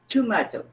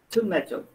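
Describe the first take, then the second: First: It is said with a British accent. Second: The same.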